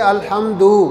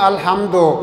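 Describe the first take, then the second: First: The final vowel sounds like 'oo'. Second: The final vowel sounds like 'o'. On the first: The speaker calls it right. "यानी यू के लहजे में" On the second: The speaker calls it wrong. "हम पढ़ते हैं अल्हम्दो"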